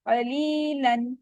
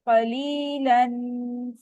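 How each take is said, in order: First: The final nasal sound is kept short. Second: The final nasal sound is held long. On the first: The speaker calls it right. "ये बस simple one count जितना होगा" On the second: The speaker calls it wrong. "ऐसे नहीं करना"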